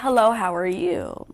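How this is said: It is said in a warm, pleasant tone. The speaker is happy to talk. "And I said it nicely"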